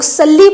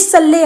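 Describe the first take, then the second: First: The word ends in a long 'ee' vowel. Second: The word ends in a short 'e' vowel. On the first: The speaker calls it wrong. "जो लोग सल्ली पढ़ रहे हैं ये गलत पढ़ रहे हैं" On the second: The speaker calls it right. "ये सल्ले अला है"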